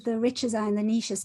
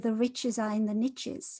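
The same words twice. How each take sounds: First: 'Niches' does not rhyme, like 'neeshes'. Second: 'Niches' rhymes with 'riches', like 'nitches'. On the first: The speaker calls it wrong. "Doesn't sound very good" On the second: The speaker calls it right. "because it rhymes"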